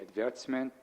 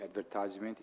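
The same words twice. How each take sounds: First: It is said the British way. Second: It is said the American way. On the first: "In Britain, they say" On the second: "In America, they say"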